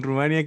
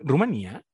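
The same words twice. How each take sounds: First: Said in the usual way. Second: "Rumanía" questioned, stressed on the í. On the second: Shown as a demonstration. Host doubting how the country is said, questioning "Rumanía" stressed on í. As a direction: try out "Rumanía" with a stressed í, rising. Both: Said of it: "Lo estoy diciendo mal".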